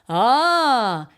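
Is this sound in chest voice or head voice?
chest voice. It is a lower, fuller chest-voice sound. "from chest voice"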